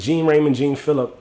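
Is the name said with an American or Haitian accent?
American. The name is said in an American way.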